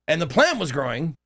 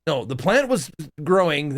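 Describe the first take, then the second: First: "plant" said with a questioning upward lift; tentative rise on plant. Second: "plant" stressed with a settled falling tune; firm fall on plant. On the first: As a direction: ask it, "plant" rising uncertainly. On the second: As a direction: correct yourself, "plant" landing down firmly. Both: Real, not acted. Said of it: "Or, no".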